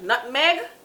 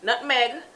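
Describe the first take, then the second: First: It is said in a Jamaican accent. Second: It is said in a Jamaican accent.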